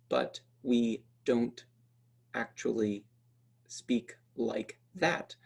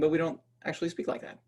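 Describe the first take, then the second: First: Every syllable is pronounced fully and clearly. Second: Some sounds are skipped and the words slurred. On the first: The speaker calls it wrong. "I'm not saying" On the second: The speaker calls it right. "I'm skipping a bunch of phonemes, I'm, uh, I'm mumbling and slurring some"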